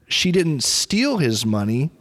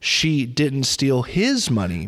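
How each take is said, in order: First: The stress falls on the word 'steal'. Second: The stress falls on the word 'his'. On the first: She got his money some other way, not by stealing. "She didn't steal it. Maybe she just borrowed his money" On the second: She stole someone else's money, not his. "Maybe maybe she stole somebody else's money"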